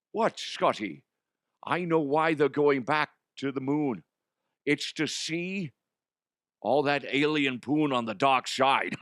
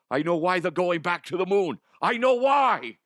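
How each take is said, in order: First: Measured comic character voice, slurred esses; Connery. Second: High, loud, excited comic character voice; passionate. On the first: Connery character repeats his revelation calmly. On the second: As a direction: blurt out the big discovery, rising to a shout. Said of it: "you're so passionate". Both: Acted.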